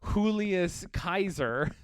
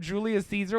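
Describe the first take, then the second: First: The second word begins with a hard K sound. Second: The second word begins with a soft S sound. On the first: This is the ancient Latin form. "In just in Latin" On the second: This is the modern English form. "what we say in English"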